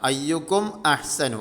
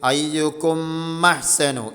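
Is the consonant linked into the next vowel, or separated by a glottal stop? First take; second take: separated; linked. First: A glottal stop separates the two words. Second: The consonant runs straight into the next vowel. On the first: The speaker calls it right. "അങ്ങനെ ഓതണം" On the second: The speaker calls it wrong. "സുക്കൂനുള്ള മീമിന് ശബ്ദ വരും, ശേഷമുള്ള ഹംസയും പോകും"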